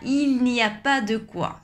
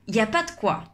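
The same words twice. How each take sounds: First: Every word and sound is pronounced in full. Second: Il, ne and the e are dropped. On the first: The speaker calls it wrong. "on ne dit pas" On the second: The speaker calls it right. "On dit plutôt ... le il va disparaître ... on enlève le ne ... on enlève aussi le e"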